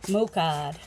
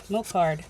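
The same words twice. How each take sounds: First: Mocard with a New England accent, r dropped: moh-cahd. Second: Mocard with the r said: moh-card, not New England; careful correction. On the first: Real, not acted. Vlogger reading a label, slipping into New England accent. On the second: Shown as a demonstration. Vlogger correcting her New England Mocard, careful r. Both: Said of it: "my New England accent kinda got lost there".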